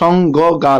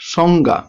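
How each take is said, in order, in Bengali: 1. g ধ্বনিটি দুবার বলা হয়। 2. g ধ্বনিটি একবার বলা হয়। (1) "কথাটা কিন্তু সঙ্গ গা লয়" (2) "আমরা একটি গ দিয়ে উচ্চারণটা করছি"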